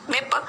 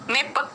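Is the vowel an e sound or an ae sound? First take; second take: e sound; e sound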